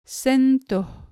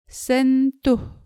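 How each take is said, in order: First: The second vowel sounds like 'o'. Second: The second vowel sounds like 'oo'. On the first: The speaker calls it right. "The U here in the second syllable sounds more like O" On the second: The speaker calls it wrong. "Be careful not to pronounce the word sentuh as in sentuh"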